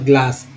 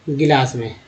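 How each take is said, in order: First: The g and l form a cluster, 'glaas'. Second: A short vowel separates g and l, 'gilaas'. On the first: This matches how it is written in English. The speaker calls it right. "लिखा तो जा रहा है उस ग्लास" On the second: This is how most people say it. The speaker calls it wrong. "Maximum लोग बोलेंगे गिलास में"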